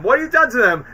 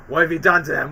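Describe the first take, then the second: First: Angrier repeat. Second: Said in the usual way. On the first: Retold or imitated. Norman confronting both Spider-Men, louder angry repeat. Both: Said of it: "where he's like".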